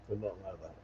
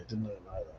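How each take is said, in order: First: "Did not" split apart, each word landed; mock-solemn "Did not know that", spaced out; stress on DID NOT. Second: Said in the usual way. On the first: Shown as a demonstration. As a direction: lean on "Did not" in a quiet, pointed aside.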